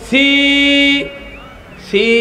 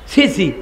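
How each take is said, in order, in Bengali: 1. স্বরধ্বনিগুলো টেনে লম্বা করে বলা হয়। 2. স্বরধ্বনিগুলো ছোট ও দ্রুত বলা হয়। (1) "এক আলিফের মদ দিয়ে পড়েন" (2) "হরকত দিয়ে পড়লে"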